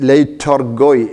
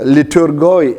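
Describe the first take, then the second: First: The first syllable sounds like 'light'. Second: The first syllable sounds like 'lit'. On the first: "ലൈറ്റോർഗോയ് എന്നും ഉച്ചരിക്കാം" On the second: "ലിറ്റോർഗോയ് എന്നുള്ള വാക്കിന്"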